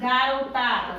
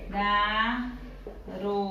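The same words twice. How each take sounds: First: Said in the usual way. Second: "Garotada" slow and soft, ga-ro-ta-da with long pauses; separated into syllables. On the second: Shown as a demonstration. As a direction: stretch each syllable of "Garotada", pausing after each. ("Garotada" separada devagar, sílaba por sílaba) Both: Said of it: "Vamos lá separar essa palavra".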